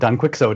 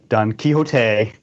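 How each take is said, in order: First: Quixote is said the way it is spelled. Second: Quixote is said the usual, accepted way. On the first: The speaker calls it wrong. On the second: The speaker calls it right.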